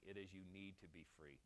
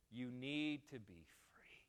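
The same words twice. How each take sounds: First: Said in the usual way. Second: Each word of "You need to be free" set down slowly; "You need to be free" drawn out for emphasis; slow, weighty repeat. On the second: Shown as a demonstration. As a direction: drive "You need to be free" home, slower.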